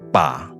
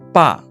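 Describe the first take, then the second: First: The pitch dips low and then rises. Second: The pitch falls sharply from high to low. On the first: It means a handle. "Bunyi ketiga" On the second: It means father. "Bunyi keempat"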